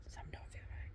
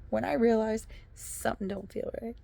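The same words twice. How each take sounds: First: Whispered repeat; hushed aside. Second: Said in the usual way. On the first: Shown as a demonstration. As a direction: drop to a secretive whisper.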